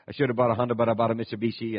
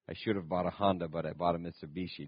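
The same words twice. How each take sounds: First: The sentence is said quickly. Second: The sentence is said slowly.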